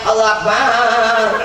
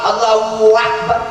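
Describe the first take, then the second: First: The ba syllable of Akbar is drawn out long. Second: A w sound is inserted between the two words. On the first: "Ada yang baknya panjang" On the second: "Ada yang tengahnya pakai waw"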